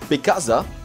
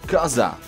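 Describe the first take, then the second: First: Every syllable of both words is pronounced fully. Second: The first syllable and final sound are dropped. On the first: "we can say" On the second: "They make the B silent and of, they don't say it"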